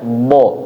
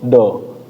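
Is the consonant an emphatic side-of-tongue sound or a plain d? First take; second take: emphatic; plain d. First: The consonant is a heavy sound from the tongue sides. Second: The consonant is a plain d from the tongue tip. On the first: The speaker calls it right. "Tadi kalau misalnya bo ya" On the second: The speaker calls it wrong. "orang Indonesia itu kelirunya ketika mengucapkannya bo bukan bo, tapi do"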